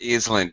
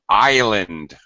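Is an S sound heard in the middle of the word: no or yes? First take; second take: yes; no. First: The word is said with an S sound. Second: The word is said with no S sound. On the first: The speaker calls it wrong. "not island" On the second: The speaker calls it right. "Do not pronounce the S in island"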